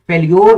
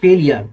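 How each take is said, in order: First: The ending is said as 'lyor'. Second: The ending is said as 'lee-er'. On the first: The speaker calls it wrong. "फेल्योर नहीं पढ़िएगा इसको" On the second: The speaker calls it right. "इसको पढ़ेंगे फेलियर"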